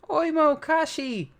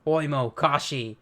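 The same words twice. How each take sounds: First: Excited shout. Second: Said in the usual way. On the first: Acted. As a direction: cry out the two names in delight. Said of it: "Usopp's happy". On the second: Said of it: "co-captains of the Giant Warrior Pirates".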